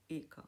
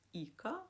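First: Second «іка» opened to «ика», short-i sound; ending with Y. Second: «іка» with a close front «і»; ending with I. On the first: Teacher shows the alternative ending, «іка» said as «ика». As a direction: say «іка» as «ика», vowel as in bit. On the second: Teacher shows foreign-word endings, «іка» with ee. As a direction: say «іка» with a clear ee sound. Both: Shown as a demonstration. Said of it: "які мають закінчення".

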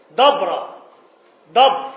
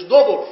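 First: دبر said as dabr, with a fatha, louder; the right دبر, stressed with an open a; the correct way to say دبر; correct vowel, louder. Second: دبر said as dubr, with a damma, louder; the mistaken دبر, called out with an u sound; the wrong way to say دبر; wrong vowel, louder. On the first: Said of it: "رمى بالكلام دبر أذني". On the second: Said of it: "مش". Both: Shown as a demonstration.

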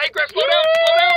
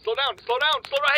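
First: High, loud panicked yell; panicked shout. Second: Said in the usual way. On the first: Acted. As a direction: yell to stop him. Griff speeding out of control.

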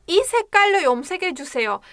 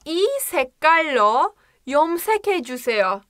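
First: 이 색깔로 염색해주세요 rattled off very fast, a bit higher; rapid model sentence. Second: Fluent fast model. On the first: Teacher showing the natural fast phrase. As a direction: run 이 색깔로 염색해주세요 together at full speed. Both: Shown as a demonstration. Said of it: "Diyorum ki".

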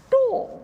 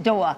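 First: "door" in a very high, open, over-rounded demonstration; hammed-up elocution correction on "door"; corrected door vowel. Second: "door" in her own vowel, short and louder; the pupil's attempt at "door"; wrong door vowel. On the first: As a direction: mimic the teacher's high-pitched "door". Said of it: "No, no, it's not door". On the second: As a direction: say "door" plainly, punched and falling. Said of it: "it's not door".

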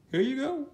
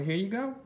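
First: "Here you go" much higher; high playful repeat; higher singsong. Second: Said in the usual way. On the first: Pretend. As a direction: hand it over in a high cheery voice. Repeating in a sweeter voice.

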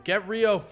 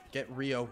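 First: Louder, higher repeated order; urgent call. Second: Said in the usual way. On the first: Real, not acted. Player urging teammates onto an enemy, urgent call. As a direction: raise your voice on the repeat.

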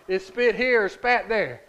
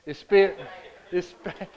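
First: Slow, louder joke on spit and spat; playful emphasis. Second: Laughing as he settles it; spit, said through a laugh; laughing at his own word mix-up. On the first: Shown as a demonstration. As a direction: spit here and spat there, both punched slowly. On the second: Real, not acted. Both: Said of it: "Spit or spat or spit?".

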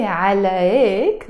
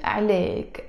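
First: عليك with a strong throaty ayn, "ʕalayk"; عليك said the formal way, starting with a pharyngeal ayn; wrong pronunciation. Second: عليك as a light "alek" with no throaty sound; عليك said softly as "alek", no ayn; correct pronunciation. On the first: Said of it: "I don't say". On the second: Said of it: "No, I pronounce it". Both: Shown as a demonstration.

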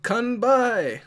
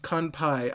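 First: Kanbai with a hard B, called out higher; wrong word Kanbai. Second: Fix it to KAN-pai, with a P; corrected Kanpai. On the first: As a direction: cheer Kanbai, KAN-bai with a B. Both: Real, not acted. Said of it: "I don't know why I said kanbai".

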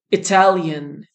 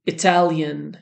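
The two takes are said the same way.

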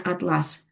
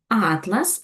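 First: Атлас stressed on the second syllable, at-LÁS; атлас slow, with a falling tune on ЛАС. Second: Атлас stressed on the first syllable, ÁT-las; Атлас with a rising tune and the opening А stressed. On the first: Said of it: "як у слові атлас". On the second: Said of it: "наголос падає на перший склад". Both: Shown as a demonstration.

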